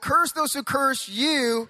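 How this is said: The word 'you' is strongly emphasized.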